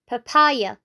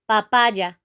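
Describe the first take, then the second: First: The word is said with an English pronunciation. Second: The word is said with a Spanish pronunciation. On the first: "In English, you say papaya" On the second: "In Spanish, you have to say papaya"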